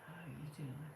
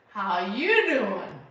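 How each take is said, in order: First: It is said in a creepy way. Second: It is said in a plain way.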